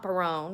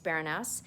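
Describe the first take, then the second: First: The name ends without a sounded final vowel. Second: The name ends with a sounded, accented final E. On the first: The speaker calls it wrong. "so it's not Barone, which everybody keeps saying to me" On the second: The speaker calls it right. "with an accent on the E"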